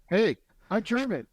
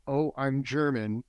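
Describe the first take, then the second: First: Much higher, upbeat acted announcement; grateful pride. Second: Understated burdened admission, near usual voice. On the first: Coach modelling a grateful German, proud and upbeat. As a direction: announce it proudly, pitched right up. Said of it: "is to be grateful". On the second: Acted. German man facing his inherited stigma, understated and burdened. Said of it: "so then there's this thing".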